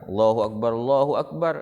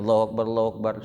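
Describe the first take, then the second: First: It is said slowly with a pause between phrases. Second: It is said quickly with little pause between phrases. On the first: It is the call to prayer. "pelan-pelan kalau azan itu ... itu berhenti dulu" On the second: It is the call that starts the prayer. "Kalau komat itu dicepatkan"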